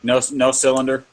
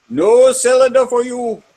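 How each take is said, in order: First: Said in the usual way. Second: Higher, louder mock refusal; comic shout. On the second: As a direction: bark it like a stern shopkeeper. Comic shouted refusal, movie parody.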